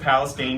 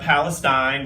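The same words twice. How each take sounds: First: It is said the way the town's locals do. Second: It is said the common, widespread way. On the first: "but they pronounce it" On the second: "which is uh, Palestine"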